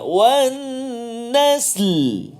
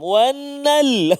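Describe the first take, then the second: First: Both the s and the l are heard. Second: Only the l is heard at the end. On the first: The speaker calls it right. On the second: The speaker calls it wrong.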